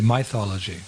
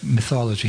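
First: The word has a Bengali-style pronunciation. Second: The word has a standard English pronunciation. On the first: "He'd say mythology" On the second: "His Bengali pronunciation was not like mythology"

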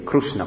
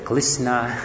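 First: Krishna is said the Orissa way. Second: Krishna is said the Chinese way.

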